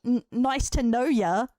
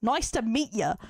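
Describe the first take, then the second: First: Slow, questioning lift on "know ya"; slow mock quote with "know ya" lifted; mocking wrong slang. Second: "meet" stressed, falling away on "ya"; matter-of-fact correction, "meet ya" closing downward; corrected phrase. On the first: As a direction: quote "know ya" incredulously, drawn out and rising. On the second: Shown as a demonstration. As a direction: land firmly on "meet" as the right word. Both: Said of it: "That slang don't make no sense".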